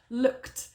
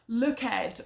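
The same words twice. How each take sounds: First: The ending is a short t sound. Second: The ending is said as an extra syllable. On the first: The speaker calls it right. "sometimes it's a t sound, for example, with looked" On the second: The speaker calls it wrong. "pronouncing those words like they are spelt. So that's looked or cooked, which is just not right"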